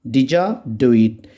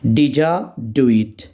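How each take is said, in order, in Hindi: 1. 'Did you' मिलकर एक शब्द 'didja' बन जाता है। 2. 'Did you' मिलकर एक शब्द 'didja' बन जाता है।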